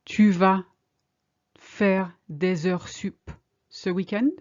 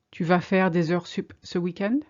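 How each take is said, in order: First: Slowly, in two parts with a pause; slow, chunked. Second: Said in the usual way. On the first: Shown as a demonstration. Teacher modelling a question for learners, slowly chunked. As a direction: break it up for learners. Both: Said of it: "Are you going to work overtime this weekend?".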